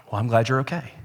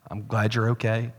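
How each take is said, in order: First: Curt, unimpressed retelling of the wife; deadpan, the letdown answer; flat wife reply. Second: Softly imagined tender reply; picture the sympathy he hoped for; expected caring wife. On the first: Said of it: "Brittany looked and she said". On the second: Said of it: "I expected her to say". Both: Retold or imitated.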